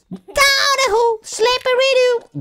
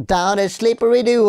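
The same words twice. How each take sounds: First: High squeaky singsong; silly high falsetto rhyme. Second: Said in the usual way. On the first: Pretend. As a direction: squeak it out like a cartoon.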